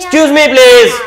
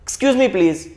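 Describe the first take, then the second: First: The phrase is shouted loudly. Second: The phrase is said at a calm, moderate volume. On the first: It comes across as yelling at someone. The speaker calls it wrong. "રાડું ન નખાય" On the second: It is a polite request. The speaker calls it right. "તમારી વિનંતી"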